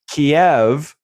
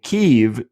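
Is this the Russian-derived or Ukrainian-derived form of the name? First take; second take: Russian-derived; Ukrainian-derived. First: The name is said in its Russian-derived form. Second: The name is said in its Ukrainian-derived form. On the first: The name follows the Russian language. "Kiev derived from the Russian language" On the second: The name follows the Ukrainian language. "Kyiv derived from the Ukrainian language"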